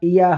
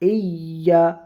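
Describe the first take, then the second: First: The vowel is kept short. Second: The vowel is drawn out long. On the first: The speaker calls it wrong. "ইয়া হবে না" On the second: The speaker calls it right. "এটা একটু টান হবে"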